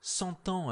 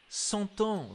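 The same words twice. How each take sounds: First: Said in the usual way. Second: "cent ans" repeated, pitched high and falling; stress on cent ans. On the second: A narrator's reading. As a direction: lift "cent ans" high then let it fall.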